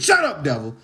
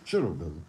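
First: It is said loudly and forcefully. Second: It is said quietly and softly.

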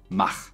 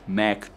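First: The word is said with a German pronunciation. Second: The word is said with an English pronunciation. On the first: "So I think you could also say Mach" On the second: "how you say it in English"

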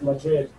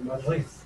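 First: The word is said the standard way. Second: The word is said the local Madrid way. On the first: "instead of Madrid" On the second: "in Madrid, they say Madrid"

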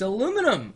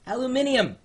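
First: It is said the speaker's local way. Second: It is said the way people say it overseas. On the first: "it's aluminum" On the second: "or as they say overseas"

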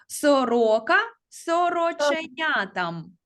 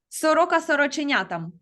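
First: The phrase is said at a moderate pace. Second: The phrase is said at a fast pace.

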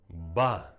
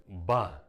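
Both takes have the same delivery.

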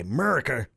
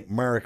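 First: The word is said in an exaggerated American accent. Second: The word is said in a British accent. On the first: The speaker calls it right. "You have to say America" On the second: The speaker calls it wrong. "you can't say America with a British accent"

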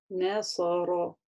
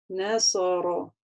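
The two takes are said the same way.

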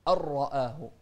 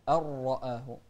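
First: The r sound is heavy and thick. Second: The same.

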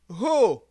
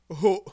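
First: It is said without a glottal stop. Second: It is said with a glottal stop. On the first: "La syllabe ho" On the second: "Avec le coup de glotte"

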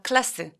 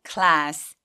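First: The vowel is said short. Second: The vowel is said long. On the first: The speaker calls it wrong. "class 아니고" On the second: The speaker calls it right. "혀가 보일 정도로"

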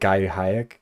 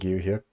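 First: The name starts with a 'guy' sound. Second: The name starts with a 'gyu' sound. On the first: The speaker calls it wrong. "I was saying like Guy Hayek" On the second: The speaker calls it right. "I think it's supposed to be like Gyu Hyuk"

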